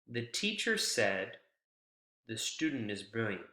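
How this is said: A single pause comes right after 'said'. The teacher says the student is brilliant. "It's the pause shortly after said"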